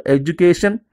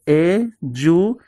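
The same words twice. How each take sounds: First: Said in the usual way. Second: "Education" broken into e - du - ca - tion; long pauses between each syllable of "Education"; split into syllables. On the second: Shown as a demonstration. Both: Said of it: "divide the words into syllables".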